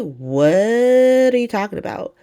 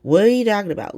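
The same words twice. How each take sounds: First: High, stretched-out "What" in mock disbelief; slow, high-pitched retold bafflement; drawn-out disbelief. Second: High-pitched baffled question, no stretch on "What"; retold bafflement, said straight through; incredulous repeat. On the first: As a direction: drag out "What" high, incredulous. Acting Willow's disbelief, drawn out first. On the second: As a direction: ask it in evenly paced mock disbelief. Same question repeated without the stretch.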